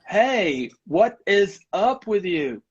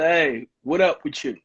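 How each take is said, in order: First: Every word is said fully, including 'is'. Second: The word 'is' is dropped in casual speech. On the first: The speaker calls it wrong. "instead of saying" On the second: The speaker calls it right. "to cut parts of the language"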